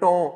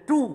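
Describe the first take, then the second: First: The vowel is an 'oh' sound. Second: The vowel is a long 'oo' sound. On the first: The speaker calls it wrong. "अगर उसको कोई बोले टो" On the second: The speaker calls it right. "मसलन बोलते टू"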